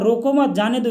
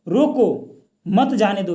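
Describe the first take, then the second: First: There is a pause after 'mat'. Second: There is a pause after 'roko'.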